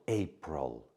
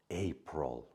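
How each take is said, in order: Both takes have the same delivery.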